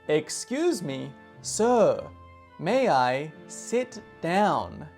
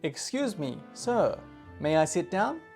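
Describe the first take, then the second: First: The phrase is said slowly. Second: The phrase is said at natural speed.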